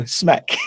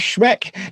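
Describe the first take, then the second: First: The name begins with a plain 's' sound. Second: The name begins with an 'sh' sound. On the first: The speaker calls it right. "No, Smeck" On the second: The speaker calls it wrong. "I was saying it wrong"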